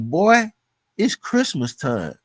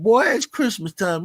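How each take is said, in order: First: Mentor's upbeat call, drawn out slowly; a happy boss hyping his worn-out worker, slow; cheerful boss. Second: Higher, brighter repeat of the boss's hype; the boss insisting, higher and more eager; cheerful boss. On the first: Mentor hyping his sweating worker, slow upbeat call. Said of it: "so he like". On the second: Mentor repeating his hype to a stunned worker, higher eager call. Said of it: "He said". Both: Retold or imitated.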